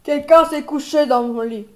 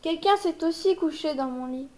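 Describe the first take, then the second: First: It is said in a big, deep voice. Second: It is said in a medium voice.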